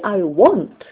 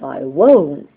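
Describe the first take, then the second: First: The vowel of won't sounds like the one in want. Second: The vowel of won't is the long vowel of won't. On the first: The speaker calls it wrong. "it sounds as if they wanted to say I want" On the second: The speaker calls it right. "instead of I won't"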